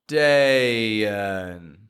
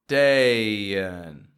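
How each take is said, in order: The two takes are said the same way.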